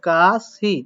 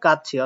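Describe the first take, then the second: First: The middle consonant is a plain s sound. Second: The middle consonant is a ch-like sound. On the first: The speaker calls it wrong. "আপনার অনুযায়ী আপনারা উচ্চারণ করতে পারেন কাশি, বাট এটা উচ্চারণ কাশি করেনি।" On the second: The speaker calls it right. "শেষে বসলে চয়ে সয়ের মতো উচ্চারণ হয়"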